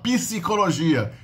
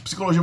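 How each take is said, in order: First: A vowel is inserted between the p and s. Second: The word starts with a tight p-s cluster. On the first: "a gente tende a falar psicologia" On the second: "um início de sílaba complexo"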